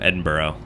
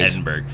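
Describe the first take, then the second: First: The name ends with a vowel, like 'burra'. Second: The name ends with a hard 'burg' sound. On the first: The speaker calls it right. "then I did it right. There's no O on it, but I know that's how you say it" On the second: The speaker calls it wrong. "I just did it wrong"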